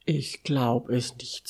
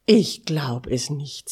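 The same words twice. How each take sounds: First: Understated, sleepy disbelief; subdued disbelief. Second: A touch louder, stunned and excited; amazed at what you see, pushed out a bit louder; excited disbelief. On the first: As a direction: say it low-key, barely awake and baffled. Sleepy friend looks out at snow. (verschlafen und ungläubig, verhalten) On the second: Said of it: "Er war so aufgeregt". (aufgeregt und ungläubig) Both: A narrator's reading.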